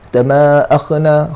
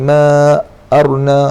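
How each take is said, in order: First: The middle consonant is a voiceless rasping kh. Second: The middle consonant is a rolled r sound. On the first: "kha pun dia macam kha salah" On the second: "baca ra pun salah"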